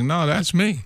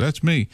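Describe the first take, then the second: First: Leaning on me in "No, that's me", said higher; insistent. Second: Said in the usual way. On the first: Retold or imitated. To doubters who called bullshit, insisting with stress on me. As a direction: insist it really is him. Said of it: "Oh, that's bullshit". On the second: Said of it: "I said".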